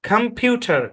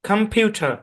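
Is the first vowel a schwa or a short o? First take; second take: schwa; schwa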